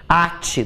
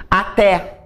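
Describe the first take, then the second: First: Ate with the stress moved to the first syllable A. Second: Até with the stress on the final TÉ. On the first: Teacher contrasts verb with até, stressing A. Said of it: "do verbo atar". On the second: Teacher contrasts the word with the verb, stressing TÉ. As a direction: say Até stressed on the last syllable TÉ. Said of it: "Ate, do verbo atar". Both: Shown as a demonstration.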